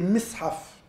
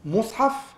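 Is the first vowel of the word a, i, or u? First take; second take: i; u. First: The first vowel is an i sound. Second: The first vowel is an u sound. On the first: The tool that holds pages together. "se prononce déjà de trois manières différentes" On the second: The book that gathers the pages. "se prononce déjà de trois manières différentes"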